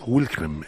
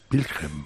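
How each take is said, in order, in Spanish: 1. El nombre empieza con un sonido w. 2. El nombre empieza con un sonido b. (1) "que no es Wilhelm" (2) "en alemán la W se pronuncia B"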